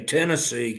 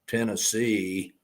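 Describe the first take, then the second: First: The stress is on the first syllable. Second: The stress is on the last syllable. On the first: The speaker is from Tennessee. "the emphasis is not on the C, it's on the ten" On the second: The speaker is not from Tennessee. "versus Tennessee"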